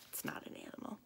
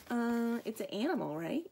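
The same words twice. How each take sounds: First: Hushed, voiceless correction; whispered aside. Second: Hesitant guess, tipping up into a question; unsure guess. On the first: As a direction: drop to a whisper to correct the guess. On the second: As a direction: guess cluelessly, checking at the end. Clueless character guesses in quotes. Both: Acted.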